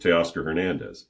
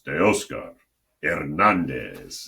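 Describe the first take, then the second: First: The name is said with an English pronunciation. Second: The name is said with a Spanish pronunciation. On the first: "Everybody calls him Teoscar Hernandez, but that's just anglicized" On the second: "as an announcer, it's Teoscar Hernandez. And you got to really punch it"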